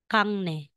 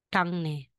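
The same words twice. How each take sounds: No difference in how they are said.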